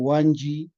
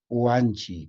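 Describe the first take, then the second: First: The word is said with a j sound. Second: The word is said with a ch sound. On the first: The speaker calls it wrong. "si yo digo Wanji, eh, um, no es entendible" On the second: The speaker calls it right. "Tiene que ser Wanji, con che nomás"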